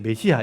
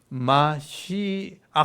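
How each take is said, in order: First: It starts with 'me' and has no throat sound. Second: It starts with 'ma' and has a harsh throat sound. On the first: This is the usual Korean reading. "그래서 이제 메시아 이렇게 하고 있는요" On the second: This is the original Hebrew pronunciation. "그래서 마시 아 이렇게 하거든요"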